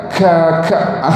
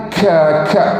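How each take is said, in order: The two takes are said the same way.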